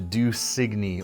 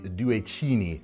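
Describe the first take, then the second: First: The name is pronounced in an English way. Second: The name is pronounced in an Italian way.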